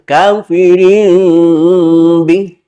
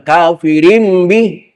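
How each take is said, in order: First: The m is soft, slow and gentle. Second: The m is pressed hard and harshly. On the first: The speaker calls it right. "Tajwid lembut, pelan-pelan" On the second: The speaker calls it wrong. "itu kasar, bukan tajwid"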